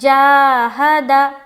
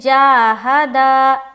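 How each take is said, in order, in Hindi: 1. आख़िरी अक्षर छोटा और जल्दी बोला जाता है। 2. आख़िरी अक्षर लंबा खींचकर बोला जाता है। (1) "दाल को हम जल्द पढ़ेंगे" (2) "दाल को भी उन्होंने लंबा कर दिया"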